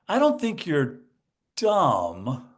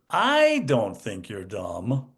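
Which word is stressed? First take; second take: dumb; I. First: The stress is on the word dumb. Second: The stress is on the word I.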